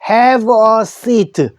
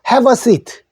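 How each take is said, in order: First: Each word is said separately, without linking. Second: The words run together, have linking into a. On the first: "영어 생활 속에서는 have a seat 해도 됩니다" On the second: "이 단어를 서로 연결해서 말해요"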